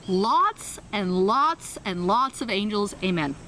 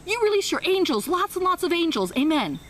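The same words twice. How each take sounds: First: Very slow, dragging "lots and lots"; slow stumbling amen; slow halting prayer. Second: Much higher, louder, lofty close; high soaring amen; grand fluent prayer. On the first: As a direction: stretch out the few words you know. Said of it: "This is literally how it went". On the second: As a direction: finish the prayer in triumph. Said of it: "she ended it with". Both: Retold or imitated.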